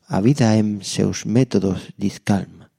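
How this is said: The title is read with stylish Brazilian Portuguese sounds. The speaker calls it right.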